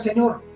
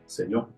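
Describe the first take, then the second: First: It is said casually, like addressing a stranger. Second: It is said with solemn, reverent weight. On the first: Addressing an ordinary man politely. The speaker calls it wrong. "no es, oiga, Señor" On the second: Acknowledging a divine lord with recognition. The speaker calls it right. "es, Señor. ¿Se dan cuenta de la diferencia?"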